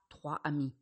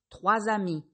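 First: No linking sound joins the two words. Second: A linking Z sound joins the two words. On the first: The speaker calls it wrong. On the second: The speaker calls it right.

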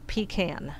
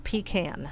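First: The word sounds like 'pee can'. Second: The same.

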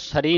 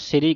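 First: The first vowel sounds like 'a', sari. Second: The first vowel sounds like 'i', siri. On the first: The speaker calls it wrong. "ਇਹਨੂੰ ਸਰੀ ਨਹੀਂ ਕਹਿਣਾ" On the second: The speaker calls it right. "ਸਿਰੀ ਕਹਿਣਾ"

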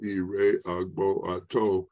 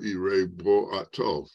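First: The start of the second word is kept. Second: The start of the second word is dropped. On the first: "instead of saying" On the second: "more common linguistically to say"

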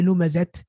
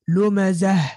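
First: The word ends with a t sound. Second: The word ends with a soft h sound. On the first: The speaker calls it wrong. "We don't say lumazat" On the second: The speaker calls it right. "we pronounce it ha"

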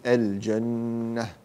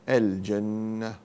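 The two takes are said the same way.

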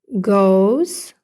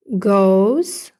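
First: It is said with an American accent. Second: It is said with an American accent.

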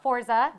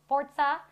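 First: The middle consonant sounds like 'z'. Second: The middle consonant sounds like 'ts'. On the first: The speaker calls it wrong. "Not Forza" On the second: The speaker calls it right. "it is pronounced Forza"

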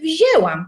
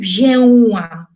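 First: The middle vowel is said as a plain e. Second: The middle vowel is said as a nasal vowel. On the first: The speaker calls it right. "tam słychać ewidentnie e" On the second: The speaker calls it wrong. "nikt nie mówi wzięłam"

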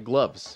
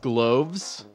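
First: The vowel sounds like the one in 'loves'. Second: The vowel sounds like the one in 'cloves'. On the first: The speaker calls it right. "but it's actually gloves" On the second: The speaker calls it wrong. "That's how my brain interprets it needs to be pronounced"

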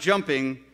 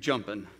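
First: The ending is a full -ing sound. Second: The ending is clipped to an -in sound. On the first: "you're not jumping" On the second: "you're jumping"

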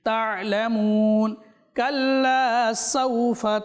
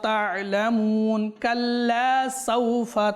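The two takes are said the same way.

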